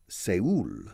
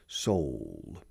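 First: Seoul is pronounced the Spanish way. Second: Seoul is pronounced the English way, like 'Sol'. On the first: The speaker calls it wrong. "Spanish people usually pronounce it Seoul, which is the Spanish pronunciation" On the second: The speaker calls it right. "It's like Sol"

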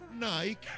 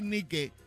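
First: Nike is said with the local, mixed pronunciation. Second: Nike is said with a Spanish pronunciation. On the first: The speaker calls it wrong. "aquí, como somos tan estupendos, decimos Nike" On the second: The speaker calls it right. "si lo dices en castellano, tienes que decir Nike"

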